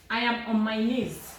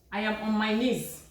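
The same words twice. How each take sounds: The two takes are said the same way.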